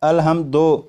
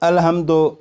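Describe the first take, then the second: First: The word ends in an 'o' vowel. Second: The word ends in an 'o' vowel.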